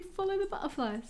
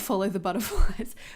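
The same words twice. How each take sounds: First: It is said in an imitated British accent. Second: It is said in the speaker's ordinary accent.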